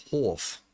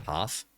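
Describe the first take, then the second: First: "half" with a rounded South African vowel, like "hawf"; South African accent. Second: Said in the usual way. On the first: Shown as a demonstration. Player contrasting "half" with Australian, South African accent. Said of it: "in South Africa, they might say it like". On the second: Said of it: "in Australia, that's how you say half".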